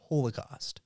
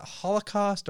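First: First syllable of Holocaust like hole; Holocaust with long O. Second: First syllable of Holocaust rhymes with doll; Holocaust with short first O. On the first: Podcaster offers the rival option, Holocaust said HOLE-uh-cost. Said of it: "Is it Holocaust or Holocaust?". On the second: Podcaster poses the debate, Holocaust said HOLL-uh-cost. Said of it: "this is what brought us to our debate". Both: Shown as a demonstration.

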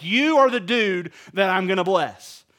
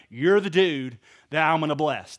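First: YOU ARE punched louder, in God's voice to Abraham; loud, emphatic "You are the dude"; emphatic revelation. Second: Said in the usual way. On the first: Retold or imitated. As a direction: lean hard on "You are", like a big announcement. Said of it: "you would just have this aha moment".

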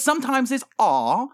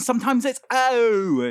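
First: "R" said as an open ah vowel. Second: "O" drawn out as a long, higher oh. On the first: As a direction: demonstrate the open O sound, "R" as ahh. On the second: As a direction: stretch the long vowel in "O". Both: Shown as a demonstration. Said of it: "The O is very difficult".

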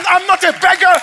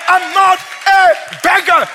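First: High, loud declaration; shouted preaching. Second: High, loud and slowed right down; slow, drawn-out shout. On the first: Pastor declaring to the church he is no beggar, shouted. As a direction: fire it out at the crowd. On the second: Pastor repeating to the church he is no beggar, slow and shouted. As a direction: stretch every word out as you shout. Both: Acted.

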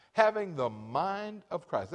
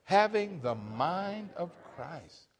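First: Slow, stressing having; repeated for emphasis. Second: Slow, stressing Having; call and response. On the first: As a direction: lean on Having, slow and deliberate. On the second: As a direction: lead the congregation, slow and firm on Having. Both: Shown as a demonstration. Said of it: "Let's say that together".

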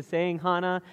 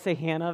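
First: "Hannah" with an open ah, HAH-nuh; first vowel of "Hannah" as in father; German pronunciation. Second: "Hannah" with a short a, HAN-uh; first vowel of "Hannah" as in hand; English pronunciation. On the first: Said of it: "so she pronounces it Hannah". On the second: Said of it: "I don't say Hannah very much anymore". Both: Shown as a demonstration.

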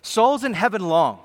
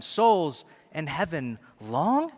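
First: Souls in heaven long, stated with a firm falling close; firm affirmation. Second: Slow, doubting rise on long; incredulous question. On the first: Preacher answering his own doubt, firm and certain. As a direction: land it as a sure statement. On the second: Preacher feigning doubt, a slow questioning rise. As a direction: souls in heaven long, asked in disbelief. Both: Pretend. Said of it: "This is, wait".

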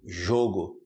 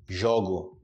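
First: "jogo" with closed O, as ZHOH-go; lower, rounded first vowel in "jogo". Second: "jogo" with open O, as ZHAW-go; lower, open first vowel in "jogo". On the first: Teacher testing the ear, closed O in "jogo". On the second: Teacher testing the ear, open O in "jogo". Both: Shown as a demonstration. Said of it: "Percebe a diferença".

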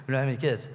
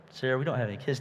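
First: Fast, laughing retelling. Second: Said in the usual way. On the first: Shown as a demonstration. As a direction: toss "We don't have any kids" off quickly with a laugh. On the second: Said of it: "wife retold to husband".

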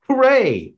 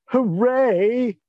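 First: Loud high sarcastic cheer. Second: High mock cheer, sarcastic; sarcastic hooray, drawn out. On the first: Acted. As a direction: fake cheer, dripping sarcasm. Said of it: "Very sarcastically". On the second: Shown as a demonstration. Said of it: "if I may".

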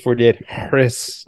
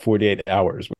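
First: "Harris" said in place of "hours"; wrong title pronunciation. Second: "hours" said as the ordinary full word; correct title pronunciation. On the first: Host joking about other readings, title mispronounced as "Harris". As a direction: sound out the abbreviation as the name "Harris". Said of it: "it's not pronounced forty-eight Harris". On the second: Host citing Wikipedia to friends, title pronounced carefully as "hours". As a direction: slowly spell out by voice that it's "hours". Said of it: "is very clear to set out that that is pronounced". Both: Shown as a demonstration.

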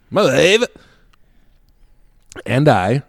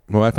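First: High, rising mock exclamation; put-on catchphrase voice. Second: Said in the usual way. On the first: Storyteller playfully echoing his own mention of his wife, mock exclamation. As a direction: crow it as a silly catchphrase.

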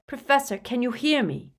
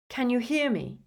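First: Raised voice, high and insistent; loud, urgent. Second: Higher, tense, worried question; strained. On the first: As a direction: call out to rouse him. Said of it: "he repeated loudly". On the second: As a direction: anxiously check for a response. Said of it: "his voice strained". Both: A narrator's reading.

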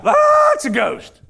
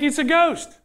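First: High, loud, drawn-out scream of terror; freaked-out scream. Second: Said in the usual way. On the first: Acted. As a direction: freak out and shriek it in mock panic. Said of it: "They freak out". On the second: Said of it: "They think".

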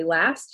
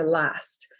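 First: Said in the usual way. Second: "last" as "lahst", vowel low and back; lowered back vowel. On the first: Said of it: "where I say last". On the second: Shown as a demonstration. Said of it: "lower and back in the mouth".

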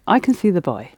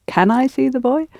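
First: Put-on settled fall on "boy"; statement intonation. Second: Put-on high rising question, lifting on "boy"; question intonation. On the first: Teacher modelling a statement for student, falling intonation. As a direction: state it, letting "boy" drop at the end. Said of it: "make it a statement". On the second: Teacher showing a student his mistake, questioning intonation. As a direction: mimic a question with "boy" going up. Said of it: "what you actually said". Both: Shown as a demonstration.

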